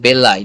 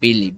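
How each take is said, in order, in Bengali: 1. শব্দটি 'eye' ধ্বনি দিয়ে শেষ হয়। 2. শব্দটি 'ee' ধ্বনি দিয়ে শেষ হয়। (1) "এটা কিন্তু বেলাই" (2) "নট বিলি"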